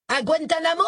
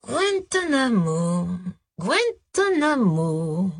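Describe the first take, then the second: First: Put-on high, insolent street kid voice; cocky young rapper. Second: Slow, drawn-out, searching memory; musing repetition. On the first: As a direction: sneer it at the cops. Rapper mocks the cops. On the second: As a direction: stretch the word out as if recalling. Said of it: "répéta-t-il comme s'il fouillait dans sa mémoire". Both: A narrator's reading.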